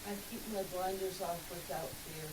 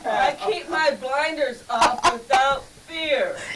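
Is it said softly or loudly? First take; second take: softly; loudly. First: It is said at normal, softer volume. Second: It is said more loudly.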